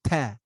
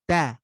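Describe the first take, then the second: First: The t is released with a puff of air. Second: The t is released cleanly without a puff of air. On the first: The speaker calls it wrong. "that's the wrong way" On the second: The speaker calls it right. "that's the right way. Notice how it's real clean?"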